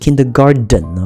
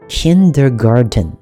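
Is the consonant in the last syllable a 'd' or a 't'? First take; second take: d; t. First: The last syllable is said with a d sound. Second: The last syllable is said with a t sound. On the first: The speaker calls it wrong. "不是kindergarten 不是花园garden" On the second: The speaker calls it right. "它是garden。OK，我们再说一次"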